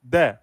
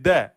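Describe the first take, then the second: Both takes have the same delivery.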